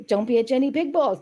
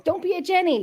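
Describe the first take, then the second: First: Said in the usual way. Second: Catchphrase "Don't be a Jenny" sung out high; high teasing singsong. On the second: Pretend. Teasing her friend Jenny with the catchphrase, high and sing-song.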